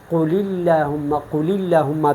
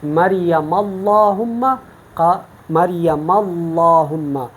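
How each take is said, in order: First: "اللہم" with a light, thin L; thin lam. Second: "اللہم" slow, with a heavy, dark L; full lam. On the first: Teacher lets students feel the contrast, thin L in "اللہم". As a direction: keep the L of "اللہم" light after "قل". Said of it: "تفخیم اور ترقیق". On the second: Teacher lets students feel the contrast, heavy L in "اللہم". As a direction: fill out and stretch the L of "اللہم". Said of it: "آپ clear cut محسوس کرتے ہیں". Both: Shown as a demonstration.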